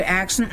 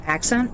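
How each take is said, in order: First: Accent said the less usual way; accent, the variant that slipped out; alternate pronunciation. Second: Said in the usual way. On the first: Shown as a demonstration. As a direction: say accent in its other accepted pronunciation. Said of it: "instead of accent". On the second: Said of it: "Both are correct enunciations".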